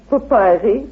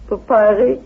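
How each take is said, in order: Both takes have the same delivery.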